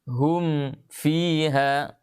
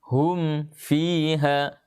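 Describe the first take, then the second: No difference in how they are said.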